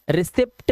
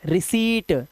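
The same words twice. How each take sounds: First: रिसिप्ट with short "i" and audible "pt"; wrong p-sounded reading. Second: रिसीट as "ri-seet", long "ee" and no p; silent-p reading. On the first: Teacher showing the misreading, short रिसिप्ट with a p. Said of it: "रिसिप्ट नहीं". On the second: Teacher correcting the misreading, रिसीट with long "ee", no p. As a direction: hold the "ee" in रिसीट, straight into t. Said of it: "आधा पा नहीं लगाना है". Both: Shown as a demonstration.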